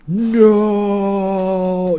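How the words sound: The shout is big and overdramatic.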